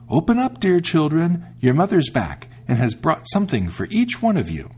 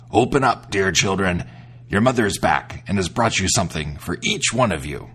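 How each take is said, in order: First: High, sweet sing-song imitation of mother; soft wolf voice. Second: Low, rough wolf pretending to be mother; gruff wolf voice. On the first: The wolf after eating chalk, coaxing the kids in a high soft voice. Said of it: "it made his voice soft". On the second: The wolf at the door fooling the kids, in a gruff voice. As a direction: growl it out like a wolf in disguise. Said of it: "by his gruff voice".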